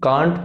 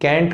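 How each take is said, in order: First: It is said in a British accent. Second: It is said in an American accent.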